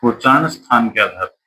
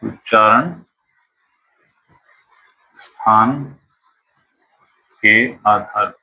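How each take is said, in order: First: Said in the usual way. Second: उच्चारण, स्थान, के आधार पर said word by word with long gaps; slow spaced-out dictating pace; slow dictation. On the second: Shown as a demonstration. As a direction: dictate each word so students can write.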